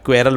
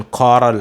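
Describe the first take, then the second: First: क्वेरल as "kwerral"; wrong pronunciation. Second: कॉरल as "khorral"; airy KH, no W, in कॉरल; right pronunciation. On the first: Teacher echoing pupils' error, क्वेरल as "kwerral". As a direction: KW glide in क्वेरल. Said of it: "बोलते हैं आप". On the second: Teacher correcting pupils, कॉरल as "khorral". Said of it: "उसे बोलना है". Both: Shown as a demonstration.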